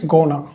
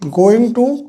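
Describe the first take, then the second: First: The words are blended into one short reduced word. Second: Both words are said fully and separately. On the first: "you can say gonna" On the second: "that is convention for going to"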